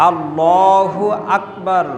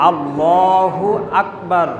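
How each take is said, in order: The two takes are said the same way.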